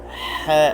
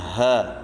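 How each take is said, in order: First: The h is harsh and pushed from the throat. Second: The h is a light, plain breath. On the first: The speaker calls it right. "baca dengan ha, ha pedas" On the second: The speaker calls it wrong. "jangan baca dengan ha"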